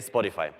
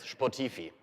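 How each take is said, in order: First: It is pronounced with English sounds. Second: It is pronounced with German letter sounds. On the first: "in a way that an English speaker would pronounce it" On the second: "pronunciation of the characters one by one after each other is Spotify in German"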